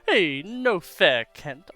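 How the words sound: It is said in a cartoon-villain impression voice.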